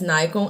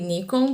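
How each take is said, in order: First: The name is pronounced the English way. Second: The name is pronounced the Brazilian Portuguese way. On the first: "Maybe that's Nikon" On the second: "I say Nikon because I'm Brazilian and I speak Portuguese"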